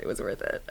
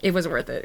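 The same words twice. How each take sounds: First: Whispered, breathy echo. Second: Said in the usual way. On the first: Real, not acted. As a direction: whisper it to yourself. Whispered repeat.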